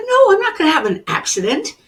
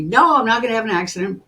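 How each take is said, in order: First: High, loud, fast denial; indignant protest. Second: Said in the usual way. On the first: Retold or imitated. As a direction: fire back in disbelief at the warning. Arguing with her intuition.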